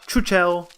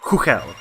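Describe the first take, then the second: First: The name is said with anglicized, non-Czech sounds. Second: The name is said with its native Czech sounds. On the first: The speaker calls it wrong. "Not Chuchel" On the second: The speaker calls it right. "It's Hugel"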